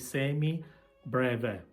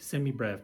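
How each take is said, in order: First: It is said in an Italian way. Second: It is said in an English way. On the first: The speaker calls it right. "let's pronounce this properly" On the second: The speaker calls it wrong. "they say semi-brev"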